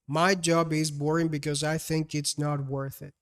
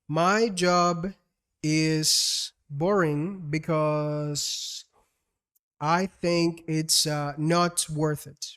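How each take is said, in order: First: It flows smoothly without a hesitation gap. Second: A hesitation gap breaks it before the end. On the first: "That's a whole sentence" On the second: "with the wrong pace"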